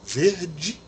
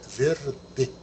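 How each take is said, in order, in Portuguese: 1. A palavra termina em 'ee' com som de 'dj'. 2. A palavra termina em 'eh' com um 'd' simples. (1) "a gente fala o I no final e ainda transforma o D em D" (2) "o E sempre pronunciado E"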